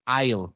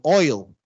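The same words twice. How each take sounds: First: AISLE for oil, with open 'ai'; Creole diphthong. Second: OIL with a rounded 'oi'; English-style OIL, glide starting from 'o'; English diphthong. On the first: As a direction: say AISLE as 'eye-l'. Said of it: "pasan a ser ai". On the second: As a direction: say OIL as 'oy-l'. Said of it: "Las que son oi". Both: Shown as a demonstration.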